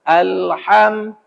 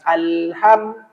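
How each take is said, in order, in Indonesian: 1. Bunyi h berasal dari tengah tenggorokan. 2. Bunyi h berasal dari pangkal tenggorokan. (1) "Pangkal tenggorokan al hanya naik ke tengah tenggorokan" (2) "Kalau kita baca alham berarti di pangkal tenggorokan"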